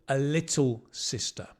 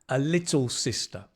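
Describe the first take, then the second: Both takes have the same delivery.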